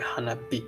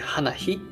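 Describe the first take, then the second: First: The last syllable starts with a b sound. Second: The last syllable starts with an h sound. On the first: The speaker calls it right. "we decided to change it to hanabi" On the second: The speaker calls it wrong. "it sounds not natural"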